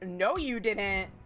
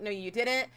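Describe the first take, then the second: First: It sounds shocked and disbelieving. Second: It sounds calm and reassuring. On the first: I can't believe you did that. "It's like a different intonation" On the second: You did not have to throw it away. "It's like a different intonation"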